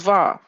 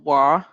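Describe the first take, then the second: First: The name begins with a V sound. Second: The name begins with a W sound. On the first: This is the modern pronunciation. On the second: This is the older pronunciation.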